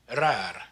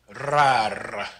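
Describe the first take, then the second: First: The R has only a light roll. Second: The R has a long, heavy roll. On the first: The speaker calls it right. "you would pronounce it rar" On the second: The speaker calls it wrong. "you don't want to put too much of a roll on it"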